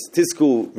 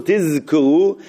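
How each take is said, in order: First: Tisku said with a hissed s instead of z; Tisku, the wrong way with an s sound. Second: Tizku said with a clear buzzing z, not an s; tizku, voice the z as in zayin; correct tizku. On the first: Teacher showing the mistaken Tisku with an s. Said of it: "It should be tizku". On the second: Teacher showing the right way to say tizku with z. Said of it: "tizku shouldn't sound like tisku". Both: Shown as a demonstration.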